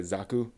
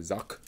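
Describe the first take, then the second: First: Said in the usual way. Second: "zak" said short, with the final vowel dropped; Japanese pronunciation. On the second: Shown as a demonstration. Fan explaining the Gundam name, Japanese-style pronunciation. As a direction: clip it to "zak" with no ending vowel. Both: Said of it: "It's not really a zaku, it's a zak".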